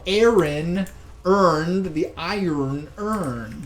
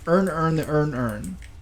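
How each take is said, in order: First: The words are said in a standard accent. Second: All words sound alike in a Baltimore accent. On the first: "Say it properly" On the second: "do we really talk like that?"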